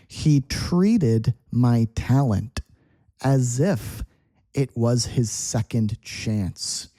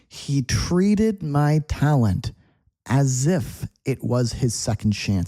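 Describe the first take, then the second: First: It is spoken slowly and deliberately. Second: It is spoken at a normal pace.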